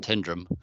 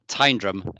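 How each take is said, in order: First: The first syllable sounds like 'tin'. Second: The first syllable sounds like 'tyne'. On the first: The speaker calls it wrong. "not Tindrum because there's no tin in Tindrum" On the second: The speaker calls it right. "it's Tyne"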